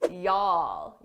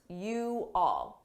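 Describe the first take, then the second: First: The two words merge into one syllable. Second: Two separate words are said quickly. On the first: "combine you all into one word" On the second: "I said it quickly, but I did say the individual words"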